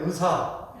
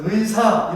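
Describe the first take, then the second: First: "의사" said as eu-sa, Jeolla style; Jeolla pronunciation. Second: "의사" with 의 as a full ui glide; full ui diphthong. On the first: Preacher shows Jeolla speakers saying doctor, Jeolla eu-sa. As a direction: Jeolla accent, dropping the i glide in "의사". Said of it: "의 발음이 잘 안 돼요". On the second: Preacher models the right way to say doctor, full ui in "의사". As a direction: sound both vowels of 의 in "의사". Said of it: "의사 이러면 되는데". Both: Shown as a demonstration.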